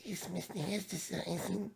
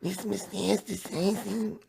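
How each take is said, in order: First: High, soft whimpering Pikachu try; sounds like crying. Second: High, slow squeaky Pikachu voice. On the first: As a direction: squeak it out like a whimper. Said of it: "It sounds like I'm crying". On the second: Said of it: "Let me try to do the Pikachu voice". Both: Pretend.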